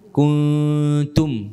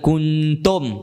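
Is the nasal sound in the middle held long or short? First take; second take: long; short. First: The nasal n is held for two counts. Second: The nasal n is cut short. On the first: The speaker calls it right. "dengung dia dua harakat" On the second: The speaker calls it wrong. "Bukan kuntum"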